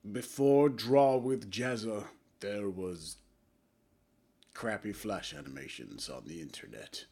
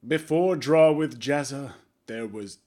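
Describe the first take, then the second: First: Dramatic opening. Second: Slow, louder trailer-style narration; dramatic intro. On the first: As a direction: hush it down like a grave documentary. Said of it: "in a cringy attempt at a dramatic opening". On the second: Vlogger tries a dramatic third-person intro, slow and loud. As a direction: announce it like a movie trailer. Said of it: "my attempt at doing a dramatic intro". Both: Shown as a demonstration.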